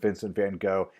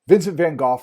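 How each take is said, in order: First: The surname is said in an anglicized form. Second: The surname is said in its native form. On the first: "I grew up learning his name as being" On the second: "is the correct way to pronounce"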